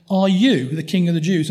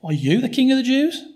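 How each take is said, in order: First: "you" pushed a little harder than the rest; stress on you. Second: Pitched high and mocking, rising at the end; sarcastic. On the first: Pilate questioning Jesus, weight on "you". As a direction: lean on the word "you". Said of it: "the way he says "you". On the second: Pilate mocking Jesus's claim, sarcastic and high. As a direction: sneer the question. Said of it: "is sarcastic". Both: Shown as a demonstration.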